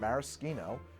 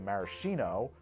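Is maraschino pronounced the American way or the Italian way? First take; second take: Italian; American. First: It is said with the Italian pronunciation. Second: It is said with the American pronunciation. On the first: It refers to the liqueur or imported cherries. "that's the Italian pronunciation" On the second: It refers to American-style preserved cherries. "it's understood to be shorthand for American-style preserved cherries"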